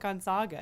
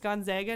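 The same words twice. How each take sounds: First: The middle syllable does not sound like zag. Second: The middle syllable sounds like the word zag. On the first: The speaker calls it wrong. "not Gonzaga" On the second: The speaker calls it right. "It's like zig and zag"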